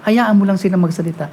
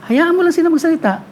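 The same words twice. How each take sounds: First: Said in the usual way. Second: Hayaan mo lang sila magsalita with lang stressed and pitched higher; emphatic repeat. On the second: Shown as a demonstration. Preacher repeating the Lord's advice to the congregation, stressing lang. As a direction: lean hard on lang the second time. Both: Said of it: "tinuro sa akin ng Panginoon na".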